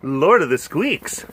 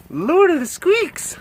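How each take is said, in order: First: Said in the usual way. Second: High, slow cooing squeak. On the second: Real, not acted. Cooing a silly title to a pet, high baby talk. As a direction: coo it high and drawn out. Repeats pet's name up high.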